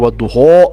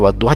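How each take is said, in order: First: The final vowel is a rounded o sound. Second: The final vowel is an open a sound. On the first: The speaker calls it wrong. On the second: The speaker calls it right.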